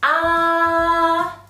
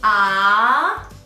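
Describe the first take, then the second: First: The pitch stays high and level throughout. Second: The pitch rises from middle to high. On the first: "The first tone is the high-pitched tone" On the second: "a high rising tone. The pitch is from the middle to the top"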